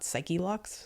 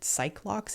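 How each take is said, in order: First: The first part is said as two syllables. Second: The first part is said as one syllable. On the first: This reading sounds the E at the end of the first part. "and not Psychelox" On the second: This is how the speaker always read it in their head. "I always pronounced it Cyclox"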